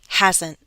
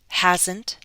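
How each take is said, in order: First: The T is a glottal stop. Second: The T is released as a full T. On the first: "Glottal stop" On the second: "listen to the true T"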